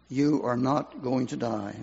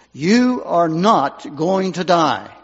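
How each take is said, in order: First: Soft, awed repeat of the promise; hushed echo. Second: Slow, firm and louder, like a messenger; commanding voice. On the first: Preacher recalling the promise, hushed and softer. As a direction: say it softly, as if remembering. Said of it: "It was like a messenger from heaven". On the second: Volunteer to dying patient, slow commanding promise. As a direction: declare it with full authority, slowly. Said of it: "he said to her in a voice, perhaps not even his own voice". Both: Retold or imitated.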